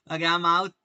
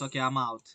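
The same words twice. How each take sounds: First: Louder exclaimed repeat. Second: Said in the usual way. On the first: Real, not acted. Streamer getting stopped out, louder exclaimed repeat. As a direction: announce it louder, laughing it off.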